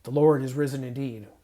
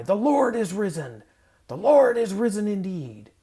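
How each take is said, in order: First: Firm, flat-toned statement of fact; routine statement. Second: Loud, higher shout of "The Lord is risen!"; joyful shout. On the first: Believer going through the motions, matter-of-fact. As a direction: say it as just the facts. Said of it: "just the facts". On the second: Leader and congregation shouting the Easter reply, exultant. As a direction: fling it out like the doors opening. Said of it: "then we all shout our reply". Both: Shown as a demonstration.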